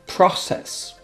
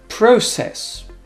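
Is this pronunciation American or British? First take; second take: American; British. First: It is said in American English. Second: It is said in British English.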